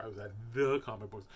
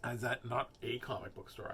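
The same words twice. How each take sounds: First: "the" stretched and emphasized; proud emphasis on "the"; stress on THE. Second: "a" picked out as the wrong word; pointed correction with weight on "a"; stress on A. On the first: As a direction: lean hard on "the" as the one that counts. Correcting "a" to "the. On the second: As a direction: lean on "a" to correct it. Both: Real, not acted.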